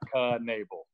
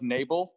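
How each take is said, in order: First: The initial K is pronounced. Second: The initial K is silent. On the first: This is the name's changed form. "make sure that K was in there" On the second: This was the name's original form. "It was Knebel, but they changed it"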